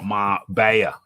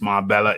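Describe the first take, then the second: First: The middle consonant is a Y sound. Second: The middle consonant is an L sound. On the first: This is how the name is properly said. The speaker calls it right. "it is pronounced Marbella, M A R Bay, B A Y A, Bayer" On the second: This is how some outsiders say it. The speaker calls it wrong. "I've heard some of the Americans mispronouncing it"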